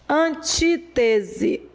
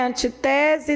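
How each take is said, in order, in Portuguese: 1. A tônica está na antepenúltima sílaba. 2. A tônica cai numa sílaba posterior. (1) "antepenúltima" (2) "Não é antitese"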